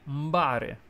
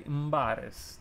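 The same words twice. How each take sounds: First: Mbare, slow Sicilian dialect demo. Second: Mbares said slowly, the m hummed straight into the b; Sicilian mbare again. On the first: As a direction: say mbare slowly as "MBAH-reh", with the m blended into the b. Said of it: "we say mbare". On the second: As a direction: repeat mbares slowly for the viewer. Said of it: "but we say mbares". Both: Shown as a demonstration.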